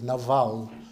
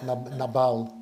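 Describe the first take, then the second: First: The name has its Hebrew pronunciation. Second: The name has its English pronunciation. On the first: "The Hebrew is Nabal" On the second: "not Nabal, like in English"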